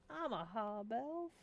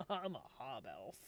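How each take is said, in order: First: Slow sass, lifting at the end; sassy. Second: Low, drawn-back sassy reply. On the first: Hob Elf answering a tavern patron, slow and sassy. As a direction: draw it out with attitude. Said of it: "Need to say it with sass". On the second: Hob Elf introducing itself at the tavern table, low sass. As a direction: drop the voice and answer with sass. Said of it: "you say with sass". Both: Shown as a demonstration.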